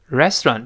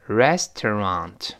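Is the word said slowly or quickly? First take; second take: quickly; slowly. First: It is said quickly with the middle syllable blurred. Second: It is said slowly with every syllable clear. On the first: "读快之后呢，那个restaurant 就读不清楚了" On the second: "我们慢慢读，每个音节在美语中听得特别清楚，慢慢来"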